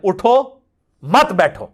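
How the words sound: There is a pause right after 'utho'. Get up, don't sit. "अगर आप ना रुके तो उठो पे रुक जाए"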